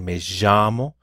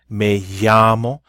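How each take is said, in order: First: The double L sound is stronger and emphasized. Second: The double L sounds like a light Y. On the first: "It kind of emphasizes that double L a little bit more" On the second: "pronounced like a Y sound"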